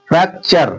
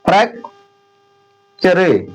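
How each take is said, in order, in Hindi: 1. अंत में छोटी 'a' ध्वनि है, कोई अतिरिक्त स्वर नहीं। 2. अंत में एक अतिरिक्त अंतिम स्वर बोला जाता है। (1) "यू आरी का उच्चारण क्या हो जाता है? आ, वो भी छोटा वाला।" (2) "अब जो प्रोनाउंसिएशन नहीं कर पाएगा सही से, रूल्स नहीं फॉलो करेगा"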